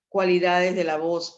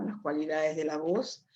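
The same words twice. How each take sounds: First: Emphatic heading. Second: Said in the usual way. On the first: Shown as a demonstration. Announcing the new topic heading.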